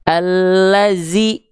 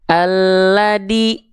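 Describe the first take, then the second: First: The middle consonant is a z sound. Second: The middle consonant is a d sound. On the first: "dia dibaca menjadi huruf menjadi huruf zai" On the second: "jangan sampai dibaca menjadi huruf dal"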